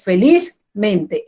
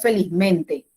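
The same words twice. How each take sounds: First: Felizmente said slowly with the stress kept on liz; teacher giving the correct felizmente after the wrong one. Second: Teacher modelling the wrong felizmente; wrong stress. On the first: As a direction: model the right felizmente, weight on the first part. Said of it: "El acento permanece en la primera parte". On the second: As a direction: show the mistake: felizmente stressed on the ending mente. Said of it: "no es". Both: Shown as a demonstration.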